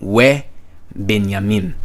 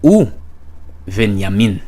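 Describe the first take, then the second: First: It begins 've' with a 'b' sound. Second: It begins 'u' with a 'v' sound. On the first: This is the modern pronunciation. "In modern Hebrew, it will be" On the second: This is the classical pronunciation. "In classical biblical Hebrew, this will be"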